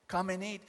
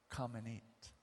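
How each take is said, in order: First: Said in the usual way. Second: Soft, low, tender offer; gentle invitation. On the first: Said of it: "this is what Jesus did". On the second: Acted. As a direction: invite him kindly and quietly. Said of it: "this is what Jesus said".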